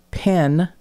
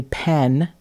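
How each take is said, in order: First: Said in the usual way. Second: "pen" with a short e in place of i; accent demo, "pen" with an eh vowel; pin said as pen. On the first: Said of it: "where pin". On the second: Shown as a demonstration. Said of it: "is actually pen".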